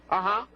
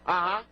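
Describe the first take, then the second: No difference in how they are said.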